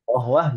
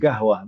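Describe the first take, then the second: First: The word starts with a deep Q sound. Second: The word starts with a hard G sound. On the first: "aslinya qaf" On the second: "lahjahnya itu qaf yang dibaca G"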